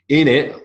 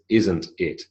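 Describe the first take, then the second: First: The phrase is squeezed into a short reduced form. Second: The phrase is said in its full form. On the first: This is a casual regional form. "very Southern English" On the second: This is the standard form. "is the correct form"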